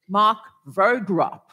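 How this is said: The name is said with an English pronunciation. "I'll try and say it in English"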